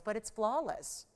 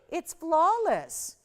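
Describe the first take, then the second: First: Said in the usual way. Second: Flawless drawn out very slowly, higher and louder; stressed flawless. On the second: Shown as a demonstration. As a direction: stretch and savor the word flawless. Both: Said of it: "I'm gonna say the F word".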